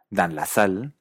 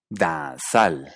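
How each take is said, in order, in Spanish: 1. La L de 'la' se pronuncia claramente. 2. La L de 'la' se omite.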